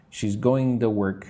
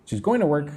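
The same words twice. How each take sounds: First: "to" said as a clear too; careful demo with "to" as too; full TO. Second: "to" reduced to duh, higher pitch; casual linked "going to" with a schwa; quick reduced TO. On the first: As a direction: keep the full oo in "to". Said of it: "If I say it super slow". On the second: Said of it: "If I say it quickly". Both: Shown as a demonstration.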